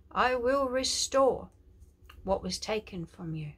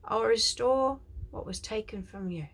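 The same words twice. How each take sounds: First: Slow, loud proclamation in God's voice; prophetic declaration. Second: Prophetic declaration. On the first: Preacher declares God's promise to viewers, loud and slow. Prophetic word spoken as God. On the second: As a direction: proclaim it like a prophet. Quoting God's words. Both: Acted.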